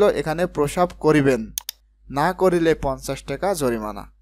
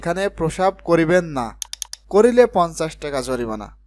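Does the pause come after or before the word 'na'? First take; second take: before; after. First: The pause comes right before 'na'. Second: The pause comes right after 'na'.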